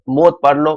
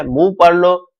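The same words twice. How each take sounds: First: मौत said with an "o" and a closing "t"; alternative reading. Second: मूव said with a long "oo" vowel; alternative reading. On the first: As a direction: read मौत as "mot", ending on t. (मौत को "त" पर खत्म करके पढ़ना) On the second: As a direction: read मूव as "moo", one long vowel. (मूव को लंबे "ऊ" से पढ़ना) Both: Shown as a demonstration. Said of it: "बात एक ही है".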